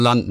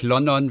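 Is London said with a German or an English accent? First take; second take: English; German. First: It is said with an English accent. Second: It is said with a German accent.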